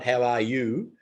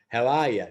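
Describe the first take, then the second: First: The last word is a full 'you'. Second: The last word is reduced to Australian 'ya'.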